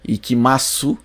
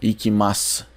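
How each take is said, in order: First: The final u vowel is clearly pronounced. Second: The final u vowel is dropped entirely. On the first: The speaker calls it wrong. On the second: The speaker calls it right.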